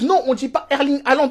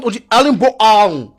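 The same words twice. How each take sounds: First: Said in the usual way. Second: "Erling Bo Haaland" in exaggerated Norwegian; mock Norwegian accent. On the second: Norwegians correcting the striker's name, mock Norwegian accent. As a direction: imitate a Norwegian drawing out "Haaland". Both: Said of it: "Si les Norvégiens".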